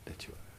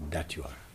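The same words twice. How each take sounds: First: Faint whispered echo; barely audible whispered repeat. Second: Soft, low affirmation; softly affirming. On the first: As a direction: whisper it back almost silent. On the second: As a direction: say it gently and low. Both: Shown as a demonstration.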